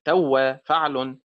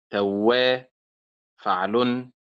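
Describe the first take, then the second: First: توا with the stress on تو; wrong stress, first syllable. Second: توا with the stress on وا; stress on second syllable. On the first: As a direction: punch the تو of توا, وا unstressed. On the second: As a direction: lean on the وا of توا, not تو. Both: Shown as a demonstration. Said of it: "وليست توا فعل".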